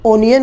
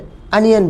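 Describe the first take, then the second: First: The first vowel sounds like 'oh'. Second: The first vowel sounds like 'uh'. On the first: The speaker calls it wrong. "कई लोग प्याज को उसमें spelling O से शुरू होने के कारण ओनियन बोल देते हैं। आप ऐसी गलती ना करें" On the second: The speaker calls it right. "यही इसका सही उच्चारण है"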